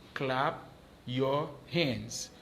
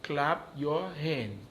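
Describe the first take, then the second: First: Very slow Clap your hands, each word stretched; teacher drilling Clap your hands very slowly; slow model phrase. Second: Slow, drawn-out Clap your hand; teacher modelling Clap your hand slowly; slow model phrase. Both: Shown as a demonstration. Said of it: "w ap di claps your hand".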